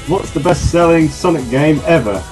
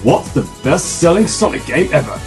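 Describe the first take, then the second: First: It is said in a normal speaking voice. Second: It is said in a put-on, different voice.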